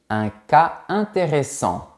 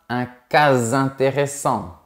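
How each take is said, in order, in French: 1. Cas et intéressant restent séparés. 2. Un son z lie cas et intéressant. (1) "On dit" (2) "On ne dit pas"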